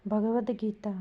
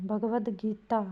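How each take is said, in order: No difference in how they are said.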